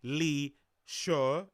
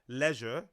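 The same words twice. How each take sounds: First: It is said with a French-sounding pronunciation. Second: It is said with an ordinary pronunciation. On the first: This is how the other person says it. "weird French pronunciation" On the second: This is how the speaker says it. "instead of leisure"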